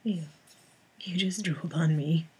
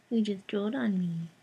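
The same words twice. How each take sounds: First: Whisper. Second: Said in the usual way. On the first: Real, not acted. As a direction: whisper it to the cat. Whisper take, then plain.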